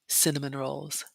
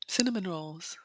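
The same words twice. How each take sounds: First: Said in the usual way. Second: "Cinnamon rolls" breathed in a whisper; longing whisper. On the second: Real, not acted. Vlogger craving pastries she filmed, whispered.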